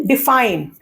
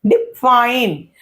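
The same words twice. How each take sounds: First: Said in the usual way. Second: "define" slowly, light डि and drawn-out fine; stress on second syllable. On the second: Shown as a demonstration. Teacher showing less force on the first syllable, define stressed on fine. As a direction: lean on fine after a brief break. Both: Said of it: "डी पर मुझे कम जोर".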